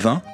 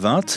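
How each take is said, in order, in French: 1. Le mot finit sans son T. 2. Le T final se prononce. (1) "la plupart des Français disent 20, comme celui qu'on boit" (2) "tout le monde en France ne dit pas 20"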